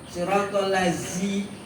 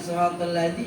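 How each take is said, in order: First: The consonant in 'ladzi' is a plain z sound. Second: The consonant in 'ladzi' is a voiced th sound. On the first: The speaker calls it wrong. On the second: The speaker calls it right.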